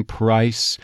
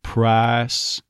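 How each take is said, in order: First: Said in the usual way. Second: "price" said "prahs" with the glide dropped; Texas price. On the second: Shown as a demonstration. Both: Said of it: "drop the second half of that I diphthong".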